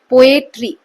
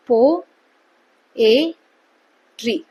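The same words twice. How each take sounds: First: poetry said loudly as one word; louder, emphatic poetry in one go; whole word demonstrated. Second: पो, ए, tree with a long pause after each; three separate syllables, पो ... ए ... tree. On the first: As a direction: announce poetry whole, before breaking it up. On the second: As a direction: break पो ए tree into three isolated beats. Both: Shown as a demonstration. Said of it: "कितनी बार pause आ रहा है बोलते वक्त".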